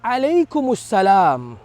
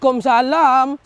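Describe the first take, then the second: First: The reply is said carefully with every syllable. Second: The reply is shortened with syllables dropped. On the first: The speaker calls it right. "Jawabnya pula" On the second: The speaker calls it wrong. "Jangan juga jawab salam dengan cara"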